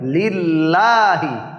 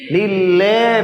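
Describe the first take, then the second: First: The vowel after the double L sounds like 'a'. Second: The vowel after the double L sounds like 'e'. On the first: The speaker calls it right. "আ sound" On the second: The speaker calls it wrong. "লেহি হবে না"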